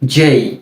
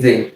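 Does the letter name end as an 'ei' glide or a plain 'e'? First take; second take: ei glide; plain e. First: It ends in an 'e' vowel gliding into 'i'. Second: It ends in a plain 'e' vowel without glide. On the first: The speaker calls it right. "তবে এর সঠিক উচ্চারণটা হচ্ছে কি? জেই।" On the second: The speaker calls it wrong. "এর পরের বর্ণটাকে আমরা বলি জে"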